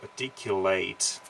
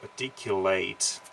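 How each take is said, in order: First: It is given the verb pronunciation of the word. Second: The same.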